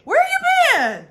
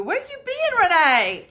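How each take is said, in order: First: Drawn-out high call. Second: Calling out. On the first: Greeting a long-lost viewer with a drawn-out high call. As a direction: stretch it out, high and loud. Repeat called out, stretched. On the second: Greeting a viewer by calling out. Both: Real, not acted.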